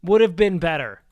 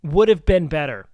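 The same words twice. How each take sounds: First: "Would" hit first and hardest, the rest falling away; stress on would. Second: "have" hit hardest, "Would" left light, ending on a fall; stress on have. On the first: Repeating the line for chat, hitting "Would" hard. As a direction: lean on "Would" in "Would have been better". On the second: Repeating the line for chat again, now hitting "have". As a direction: lean on "have" in "Would have been better". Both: Shown as a demonstration. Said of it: "That would have been a better apology".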